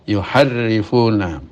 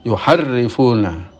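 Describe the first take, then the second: Both takes have the same delivery.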